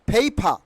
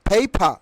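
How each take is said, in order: The two takes are said the same way.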